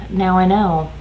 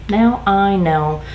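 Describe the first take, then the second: First: Said in the usual way. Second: "Now I know" slowly, with weight on each word; emphatic repeat. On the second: Retold or imitated. Worker answering coworker about a colleague, "Now I know" slow and emphatic. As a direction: draw out "Now I know" to drive it home.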